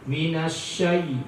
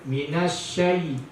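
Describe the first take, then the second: No difference in how they are said.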